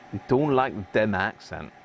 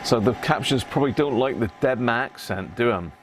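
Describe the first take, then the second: First: Said in the usual way. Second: A mock, put-on Devon accent that's hardly there; teasing the captions with a light Devon accent; bad Devon accent. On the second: Repair man teasing the captions in a bad Devon accent. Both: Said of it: "That was a bad Devon accent".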